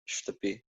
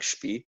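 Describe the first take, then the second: First: The word is said carefully and in full. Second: The word is said quickly and shortened.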